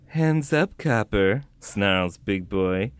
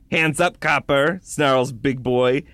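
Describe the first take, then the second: First: It is read in a sultry, seductive way. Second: It is read in a plain, ordinary way.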